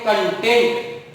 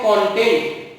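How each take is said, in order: First: कंटेंट said as kon-TENT, stress on the second syllable. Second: कंटेंट said as KON-tent, stress on the first syllable. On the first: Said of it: "लेकिन जब हम इसको पढ़ते हैं कंटेंट". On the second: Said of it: "जब हम इसको पढ़ते हैं कंटेंट". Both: Shown as a demonstration.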